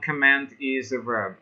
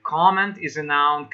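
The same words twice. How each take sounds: First: Comment stressed second, com-MENT, a little softer; verb stress on comment. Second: Comment stressed first, COM-ment; noun stress on comment. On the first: Teacher contrasting with the verb, com-MENT. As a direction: put the weight on MENT in comment. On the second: Teacher correcting student's noun use, COM-ment. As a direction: put the weight on COM in Comment. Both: Shown as a demonstration.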